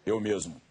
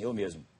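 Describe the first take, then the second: First: It is said in a changed, put-on voice. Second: It is said in a natural everyday voice. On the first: "já mudei a voz assim" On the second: "Eu sempre respondo assim"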